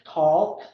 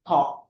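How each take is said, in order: First: An L sound is heard before the k. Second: No L sound is heard before the k. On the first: The speaker calls it wrong. "you shouldn't mention the L" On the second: The speaker calls it right. "So it would be talk"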